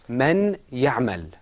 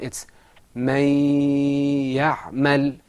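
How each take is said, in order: First: The n sound is pronounced clearly and separately. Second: The n sound merges into the following y sound. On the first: The speaker calls it wrong. "That's not the way it's pronounced in the Quran" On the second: The speaker calls it right. "In the Quran, it's"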